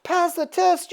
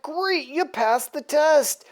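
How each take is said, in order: First: High, questioning echo; hammed-up disbelief, rising at the end; mock indignation. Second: Higher, slower approving voice; lightly acted proud congratulation; pleased villain. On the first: Death answering Apocalypse's praise, mock-incredulous. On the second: Apocalypse congratulating Death on his kill, mildly pleased. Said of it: "Apocalypse is real happy with Death".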